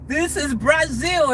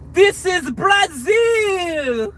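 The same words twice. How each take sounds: First: Slow, a touch higher, hammed-up movie line; lighter movie-line quote. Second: High, slow, shouted movie-hero line, much louder; Fast and Furious line. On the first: Vlogger repeats the Fast and Furious line, lightly hammed. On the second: Retold or imitated. Vlogger quotes her favourite Fast and Furious line, shouted high. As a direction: belt it out like a dramatic action movie line. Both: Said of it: "my favorite line in the Fast and Furious movie".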